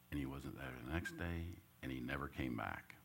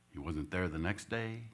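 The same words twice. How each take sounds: First: Hushed retelling of the loss; sinking softer. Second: Said in the usual way. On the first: A narrator's reading. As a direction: repeat it much softer, letting it sink. Dad leaving retold twice.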